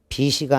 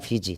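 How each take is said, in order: First: The second syllable starts with an s sound. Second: The second syllable starts with a j sound. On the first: The speaker calls it wrong. "비시가 아니라" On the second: The speaker calls it right. "비지가 되죠"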